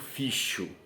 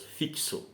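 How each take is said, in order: First: The x is pronounced as a 'sh' sound. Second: The x is pronounced as a 'ks' sound. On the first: The speaker calls it wrong. "eu não digo ficho" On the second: The speaker calls it right. "O meu X da palavra fixo tem som de K S"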